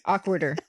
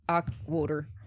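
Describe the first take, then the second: First: It is said in a neutral accent. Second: It is said in a Pennsylvania accent.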